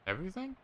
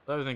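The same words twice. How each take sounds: First: Surprised question. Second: Said in the usual way. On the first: Real, not acted. Surprised at losing everything.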